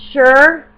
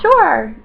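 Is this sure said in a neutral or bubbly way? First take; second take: neutral; bubbly. First: The word is said in a plain neutral way. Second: The word is said in a bubbly upbeat way. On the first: Everyday ordinary use. "Normally I say sure" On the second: Feeling cheerful. "But if I'm like being bubbly, I'm like yeah"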